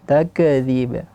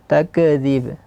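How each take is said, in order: The two takes are said the same way.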